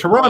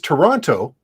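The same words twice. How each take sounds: First: The second T sound is dropped. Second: The second T sound is clearly pronounced. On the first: "like no second T" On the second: "The correct pronunciation really is Toronto"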